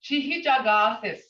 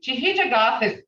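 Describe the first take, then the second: First: Chihijagathis clearly spoken as chi-hi-ja-ga-this; modelled word. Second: Chihijagathis repeated firmly as chi-hi-ja-ga-this; modelled word. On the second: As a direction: say Chihijagathis again, clearly. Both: Shown as a demonstration.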